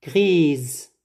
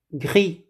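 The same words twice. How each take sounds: First: "Grise," closing on a voiced z sound. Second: "Gris," ending on the open i vowel; silent final S. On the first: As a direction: buzz the S of "Grise," as a Z. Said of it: "On prononce le S comme Z". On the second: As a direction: leave the S off the end of "Gris,". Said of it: "sans S". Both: Shown as a demonstration.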